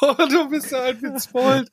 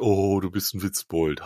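First: It sounds amused and fond. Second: It sounds sarcastic and annoyed.

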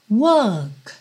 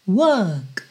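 No difference in how they are said.

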